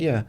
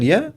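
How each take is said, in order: First: "Yeah" with a falling, settled tune; confirming yeah. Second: "Yeah" with a rising, checking tune; questioning yeah. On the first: Park-goers answering the man, confirming "Yeah". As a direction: drop "Yeah" at the end as a plain answer. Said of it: "And they said". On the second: Man asking park-goers to confirm, questioning "Yeah". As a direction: lift "Yeah" at the end into a question. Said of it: "he said". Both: Retold or imitated.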